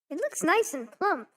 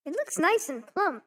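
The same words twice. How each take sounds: First: It is said in a put-on mother's voice. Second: The same.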